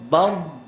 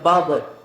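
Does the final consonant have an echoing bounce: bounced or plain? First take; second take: plain; bounced. First: The final consonant ends cleanly without a bounce. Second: The final consonant ends with an echoing bounce. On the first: The speaker calls it right. "Sekali lagi sebut bad" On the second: The speaker calls it wrong. "jangan qalqalah. Jangan baca bad"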